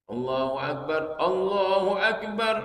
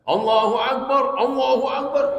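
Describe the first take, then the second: First: It is said softly and seriously. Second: It is said loudly and forcefully.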